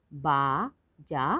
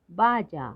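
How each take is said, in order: First: बाजा slowly split as बा, जा; syllable by syllable. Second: Said in the usual way. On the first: Shown as a demonstration. Teacher sounding out बाजा for learners, syllable by syllable. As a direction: hold each syllable of बाजा apart. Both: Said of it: "तो शब्द पढ़ते हैं".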